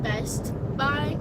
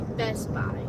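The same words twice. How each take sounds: First: The t at the end of 'Best' is pronounced. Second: The t at the end of 'Best' is dropped. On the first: "instead of saying Best Buy" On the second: "without the T and without the U"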